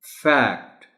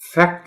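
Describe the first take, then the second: First: The vowel is said a little long. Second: The vowel is said short. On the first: The speaker calls it right. "ए sound है but अ little long sound" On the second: The speaker calls it wrong. "आप फैक्ट नहीं कहना"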